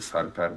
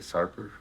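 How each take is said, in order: First: The name is said with native Turkish pronunciation. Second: The name is said with American English pronunciation. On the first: "normally Sarper" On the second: "as Americans say Sarper"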